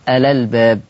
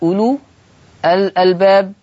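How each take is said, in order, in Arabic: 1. الهمزة تسقط، وحركتها تتصل بالكلمة التي قبلها. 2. الهمزة في albab تُنطق بوضوح.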